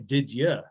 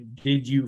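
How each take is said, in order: First: The second word is reduced to a weak 'ya'. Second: Both words are said fully and separately. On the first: "They don't even say" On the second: "doesn't say"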